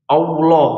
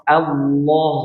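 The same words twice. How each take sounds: First: "Allah" mispronounced as "Aulo", a rounded "au" glide on the first vowel, said louder; wrong pronunciation demo. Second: "Allah" with a thick, full lam and an open "a" ending in "lo"; correct heavy lam. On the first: Teacher shows students the common mistake: "Allah" said as "Aulo". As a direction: deliberately mispronounce "Allah", sliding the a into au. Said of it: "Nah, salah". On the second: Teacher models the right way for students: "Allah" with heavy lam. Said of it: "Perhatikan, ya". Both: Shown as a demonstration.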